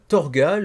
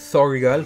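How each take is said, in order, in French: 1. Le nom est prononcé avec une prononciation française. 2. Le nom est prononcé avec une prononciation anglaise.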